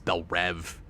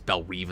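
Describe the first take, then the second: First: The second word has a short 'e' vowel. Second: The second word has a long 'ee' vowel. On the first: The speaker calls it wrong. "sometimes it's Belle Rev" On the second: The speaker calls it right. "sometimes it's Belle Reve"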